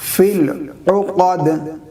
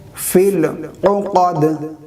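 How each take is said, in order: The two takes are said the same way.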